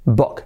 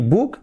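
First: "book" with a short open vowel, near "bok"; English-style book. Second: "book" with a tight "oo", as "buk"; the not-to-say "book", vowel like "boot"; Spanish-style book. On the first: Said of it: "Que no sea u". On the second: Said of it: "Nada de decir book". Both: Shown as a demonstration.

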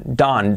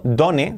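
First: "done" said like "dun", one short syllable; "done" as a single syllable, dun; correct pronunciation. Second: "done" read as written, two Spanish syllables do-ne; "done" pronounced letter by letter like Spanish; read as spelled. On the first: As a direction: give "done" the English sound, rhyming with sun. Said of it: "la pronunciación es done". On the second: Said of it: "escrito done, pero la pronunciación es done". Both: Shown as a demonstration.

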